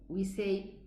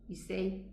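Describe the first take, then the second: No difference in how they are said.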